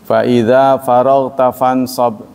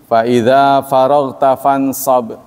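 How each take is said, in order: The two takes are said the same way.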